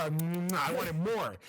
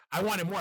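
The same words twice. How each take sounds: First: I wanted more dragged out slowly; slow hungry drawl; slow, drawn out. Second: Said in the usual way. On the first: Shown as a demonstration. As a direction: stretch each word of I wanted more out, craving.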